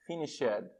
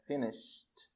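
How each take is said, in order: First: "finished" as three syllables, finish-ED; wrong extra syllable. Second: "finished" slowly as finisht, ending in T; correct -ed ending. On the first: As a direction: sound out the -ed of "finished" as a separate "ed". ("finished" errado, com "ed" separado) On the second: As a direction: close "finished" on "sht", no added syllable. ("finished" devagar, terminando em T) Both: Shown as a demonstration. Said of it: "vai soar estranho".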